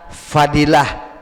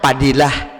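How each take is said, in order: First: The name begins with an f sound. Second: The name begins with a p sound. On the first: "F itu dibaca P" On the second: "kita baca cak Padilah"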